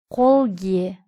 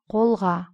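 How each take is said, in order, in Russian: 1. Суффикс произносится с гласной е. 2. Суффикс произносится с гласной а.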